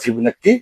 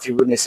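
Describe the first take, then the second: First: The middle consonant is a long k sound. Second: The middle consonant is a ch sound. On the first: This is the Bengali textbook pronunciation of the name. "অথবা বাংলা বলা ফিবোনাক্কি সংখ্যা" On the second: This is the English pronunciation of the name. "তার নাম অনুসারে এটাকে বলা হয় ফিবোনাচি number"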